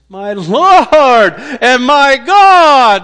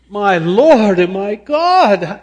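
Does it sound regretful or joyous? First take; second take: joyous; regretful. First: It sounds joyous and delighted. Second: It sounds regretful and self-reproaching.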